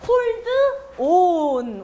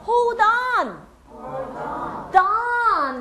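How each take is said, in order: First: Slow "hold... on", split in two; drawn-out, unlinked "hold on"; separate words. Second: "hold on" joined as a drawn-out "hol-don"; high, slow "hol-DON" in one piece; linked, stressed. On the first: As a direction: say "hold" with a full D, pause, then "on". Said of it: "그렇게 안 하고요". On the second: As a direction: slide the D of "hold" onto "on". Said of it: "강세는 on엔 없습니다". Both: Shown as a demonstration.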